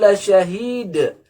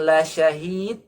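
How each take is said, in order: First: The final consonant is a bounced d. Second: The final consonant sounds like a t. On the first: They truly witness it. The speaker calls it right. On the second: They truly desire it. The speaker calls it wrong.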